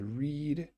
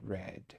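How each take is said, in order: First: The vowel is a long 'ee' sound. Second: The vowel is a short 'eh' sound. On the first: It happens in the present. "I read today" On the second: It happened in the past. "yesterday I read"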